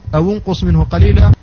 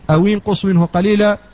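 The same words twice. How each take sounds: First: The linking vowel after 'aw' is 'u'. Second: The linking vowel after 'aw' is 'i'. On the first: "فقرأ نافع بالضم" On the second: "وقرأ الجمهور بالكسر"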